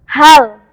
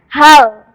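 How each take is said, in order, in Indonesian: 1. Lam di akhir ditekan dan ditahan. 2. Lam di akhir ditekan dan ditahan.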